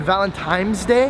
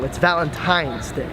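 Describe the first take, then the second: First: "Valentine's" said with an M, like "Valen-times"; "Valentine's" with M replacing the last N; mispronouncing Valentine's. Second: "Valentine's" said slowly with a clear N, "tines"; careful "Valentine's" with N, not M; corrected pronunciation. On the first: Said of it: "that's wrong". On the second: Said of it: "I guess that's wrong". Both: Shown as a demonstration.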